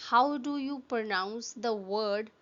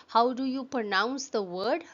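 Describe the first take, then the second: Both takes have the same delivery.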